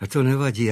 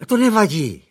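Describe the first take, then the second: First: Said in the usual way. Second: High, airy lady of the house; light, high motherly reassurance. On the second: A narrator's reading. Mother reassuring the butler, high and light. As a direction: brush it off brightly.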